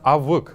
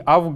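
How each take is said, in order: First: A short unclear vowel precedes the final consonant. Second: No vowel is heard before the final consonant. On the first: The speaker calls it right. "а именно авык" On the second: The speaker calls it wrong. "Не авг"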